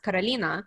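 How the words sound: The name is said with Russian sounds and rolled r. "in Russian, it's pronounced Karolina"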